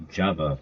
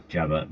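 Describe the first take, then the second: First: "Jabba" with a hard j at the start; "Jabba" begun with a crisp j, not zh; corrected pronunciation. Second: "Jabba" begun as zh, no hard j; wrong pronunciation. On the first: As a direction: say "Jabba" opening like "jam". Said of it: "pronounced as Jabba". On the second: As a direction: say "Jabba" opening on the s of "measure". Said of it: "not Jabba". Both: Shown as a demonstration.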